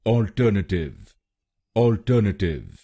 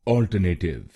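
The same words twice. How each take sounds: First: अल्टरनेटिव said ɔlʈənəʈɪʋ with stress on the second syllable; careful model of अल्टरनेटिव as the right form; correct pronunciation. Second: Alternative said the common Indian way, ɔlʈəneʈɪv with the second syllable unstressed; the mispronounced अल्टरनेटिव shown as the error; wrong Indian way. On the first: Teacher models the correct word for Indian learners. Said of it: "सही pronunciation है". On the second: Teacher shows the wrong way, with the usual Indian sounds. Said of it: "इस शब्द को गलत बोलते हैं". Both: Shown as a demonstration.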